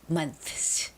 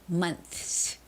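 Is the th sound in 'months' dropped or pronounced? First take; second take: pronounced; pronounced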